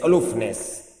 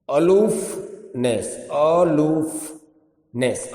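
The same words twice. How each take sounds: First: Said in the usual way. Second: અલુફનેસ slowly split, a gap before the final nes; syllable by syllable. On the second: Shown as a demonstration. Teacher introducing અલુફનેસ to learners, slowly broken into syllables. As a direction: stretch અલુફનેસ into a-loof, nes.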